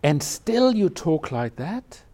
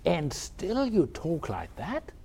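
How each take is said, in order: First: And still you talk like that, slow with weight on still and a rising end; slow questioning challenge. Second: And still you talk like that, drawn out slowly with a rising end; slow questioning challenge. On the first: Teacher repeating Tozan's challenge for the students, slow and rising. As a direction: lean on still and let the question climb. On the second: Teacher quoting Tozan's rebuke of Mishi, slow and rising. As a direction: stretch out still and you, then let the question lift. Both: Retold or imitated. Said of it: "Tozan, in reply, said".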